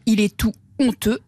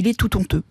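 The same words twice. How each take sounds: First: No t sound links tout to honteux. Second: A t sound links tout to honteux. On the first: The speaker calls it right. "pas de liaison" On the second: The speaker calls it wrong. "et non ... il est tout honteux"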